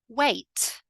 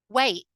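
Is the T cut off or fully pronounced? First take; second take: fully pronounced; cut off. First: The T is clearly and fully pronounced. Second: The T is cut off by a brief catch. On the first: It sounds very correct. "pronounce all of the words with a fully emphasized T" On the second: It sounds informal. "now let's look at the other way"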